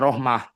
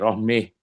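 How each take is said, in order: First: The word ends with an ah and breath. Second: The final vowel is bent toward eh. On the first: "ketika wakaf itu bisa rohmah dibacanya" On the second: "dibaca dengan apa itu imalah lagi rohmeh"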